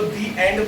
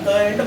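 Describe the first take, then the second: First: The word 'the' is said with a long 'ee'. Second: The word 'the' is said with a short 'uh'. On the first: The speaker calls it right. "दी एंड पढ़ना" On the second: The speaker calls it wrong. "द end मत पढ़ना"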